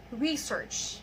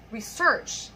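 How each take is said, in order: First: Research as a noun, RE-search; stress on first syllable. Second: Research as a verb, re-SEARCH; stress on second syllable. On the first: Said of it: "we stress the first syllable". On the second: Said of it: "we stress the second syllable". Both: Shown as a demonstration.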